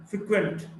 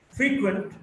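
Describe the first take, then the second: First: "frequent" as fri-QUENT; weak start, strong QUENT in "frequent"; stress on second syllable. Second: "frequent" as FREE-quent; stress on first syllable. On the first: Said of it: "stressed in the second syllable". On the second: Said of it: "stressed in the first syllable". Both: Shown as a demonstration.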